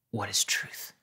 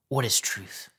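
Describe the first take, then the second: First: Sarcastic Pilate. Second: A fuller, scornful jab; mocking Pilate. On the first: Retold or imitated. Pilate mocking Jesus with a hushed sneer. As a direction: toss the question off in contempt. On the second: Pilate retorting to Jesus, open mockery. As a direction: throw the question back at him with scorn. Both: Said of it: "It was probably sarcastic".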